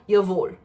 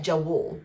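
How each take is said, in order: First: The name begins with a 'y' sound. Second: The name begins with a 'j' sound. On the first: This is how the name is really said. The speaker calls it right. "I think it's called Yavul" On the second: This is how the spelling looks to be read. The speaker calls it wrong. "It looks like Jawul, but that's wrong"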